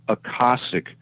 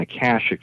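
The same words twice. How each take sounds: First: The word is said in the less common way. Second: The word is said in the usual everyday way. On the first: This is how the word should really be said. The speaker calls it right. "it's pronounced Akashic" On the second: This is how people usually say the word. The speaker calls it wrong. "the way we pronounce it on Earth"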